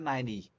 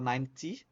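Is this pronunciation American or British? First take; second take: American; British. First: It is said in an American-style accent. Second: It is said in a British-style accent. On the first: "no americano seria mais ninety" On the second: "seria uma pronúncia um pouco mais britânica"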